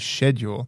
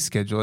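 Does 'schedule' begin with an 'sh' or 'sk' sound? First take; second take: sh; sk. First: The word begins with an 'sh' sound. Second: The word begins with an 'sk' sound. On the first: "just let him say whatever he learned in shul" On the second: "I don't say schedule"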